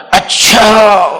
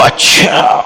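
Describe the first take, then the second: First: Voiced, falling "اچھا" as gentle assent; calm, falling "اچھا" that accepts his point; calm acknowledgement. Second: Whispered acknowledgement. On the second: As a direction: murmur "اچھا" under the breath to show you are listening. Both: Shown as a demonstration. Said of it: "مولانا کا انداز ہوتا تھا".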